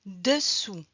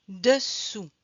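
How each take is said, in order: First: "dessous" whispered. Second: Said in the usual way. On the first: Shown as a demonstration. Teacher whispering the word for pupils to repeat. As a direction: breathe "dessous" without voice.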